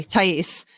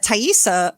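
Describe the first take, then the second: First: "Thais" ending on the s sound; corrected name. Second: "Thaisa" with an extra final "ah"; mispronounced name. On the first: Host apologizes and fixes the girlfriend's name, corrected "Thais". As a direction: say "Thais" as tie-EES, without a final "ah". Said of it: "Sorry, Thais". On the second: Host stumbles over the girlfriend's name, mispronounced "Thaisa". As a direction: say "Thaisa" as tie-EE-sah. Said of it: "am I calling her?". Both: Real, not acted.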